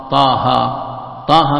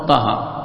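First: طاها with both aa vowels held long; a firm, drawn-out طاها; natural madd. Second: طاها said quickly with short vowels; cut short. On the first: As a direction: stretch each syllable of طاها two beats. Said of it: "مد طبيعي". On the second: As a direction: clip both syllables of طاها. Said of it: "بسرعة". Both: Shown as a demonstration.

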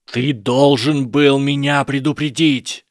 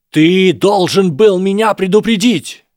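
First: Louder, slow demand, rising to a shout; raised accusation. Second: Much higher, much louder, slow yell; full shout. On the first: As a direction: press the blame on Harry, voice climbing. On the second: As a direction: hurl the blame at full volume. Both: A narrator's reading. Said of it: "Голос Драко становился всё громче".

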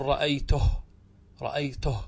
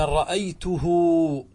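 First: رأيته ending on a silent h, no uu; رأيته, short, closed on h; pausal form. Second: رأيته stretched with a long uu after the h, ra'aytuhuu; رأيته, the final hu drawn into a long uu; with the silah. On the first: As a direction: stop dead on the h of رأيته. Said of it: "احذفها، تقول". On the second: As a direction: sing out the waw of رأيته, high and slow. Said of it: "لكنها في النطق إيش؟ واو". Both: Shown as a demonstration.

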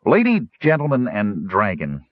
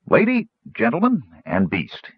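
First: Smooth, formal gnome address. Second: Gnome voice. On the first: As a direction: announce it smoothly and politely. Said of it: "Stutz said smoothly". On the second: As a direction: announce it grandly, a small gnome. Gnome formally addresses audience. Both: Acted.

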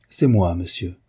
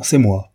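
First: Said in the usual way. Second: C'est moi lancé nettement plus fort, d'un ton qui commande; martèle C'est moi comme un ordre; impérieux. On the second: Acted. (C'est moi dit bien plus fort, impérieux) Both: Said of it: "insista-t-elle impérieusement".

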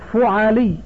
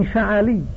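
First: فعلي as fu'alī, "u" after the f; rounded "fu" at the start of فعلي; damma on first syllable. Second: فعلي as fa'alī, "a" after the f; fatha on first syllable. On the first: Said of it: "بضم الفاء وفتح العين". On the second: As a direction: say فعلي with two short a vowels, fa-a-lee. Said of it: "بفتح عينه". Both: Shown as a demonstration.

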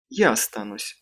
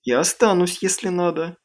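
First: Firm, lower and settled. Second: Higher, ready offer to stay. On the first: Аманда настаивает, что останется с малышами, firm. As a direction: state it as a decision. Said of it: "твёрдо сказала Аманда". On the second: Криси предлагает остаться с детьми, offering. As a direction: offer it lightly, pitched up. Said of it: "предложила она". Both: A narrator's reading.

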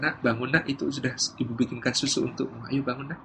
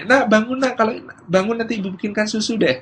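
First: Gentle mother. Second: High-pitched wake-up call with a promise; bargaining mother. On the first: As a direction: rouse a sleeping child very quietly. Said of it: "si ibu mengatakan". (ibu membangunkan dengan lembut) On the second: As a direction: rouse the child brightly with a conditional offer. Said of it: "model ibu pertama yang mengatakan". (ibu membangunkan dengan nada tinggi) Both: Acted.

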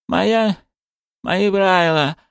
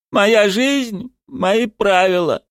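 First: «Моя, мои правила» mumbled high, sounds slurred; indistinct mumble. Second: «Моя жизнь, мои правила» high, trembling but distinct. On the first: Zagir reluctantly answers, mumbling «Моя, мои правила» indistinctly. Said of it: "пробурчал он невнятно". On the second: Zagir repeats it for everyone, «Моя жизнь, мои правила» in a trembling voice. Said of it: "произнёс Загир дрожащим голосом". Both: A narrator's reading.

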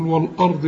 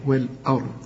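First: والأرض with a thick backed "wal-ard"; mistaken heavy hamza. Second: والأرض with a light, thin fronted "we-l-e"; light hamza. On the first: Retold or imitated. Teacher questions the student's mistake, heavy hamza. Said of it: "أمال بتقول والأرض ليه؟". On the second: Shown as a demonstration. Teacher models the Quran word for a student, light hamza. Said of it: "الهمزة مرققة".

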